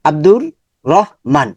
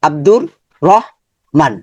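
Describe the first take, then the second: First: The name is broken by a pause inside. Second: The name is broken by a pause inside.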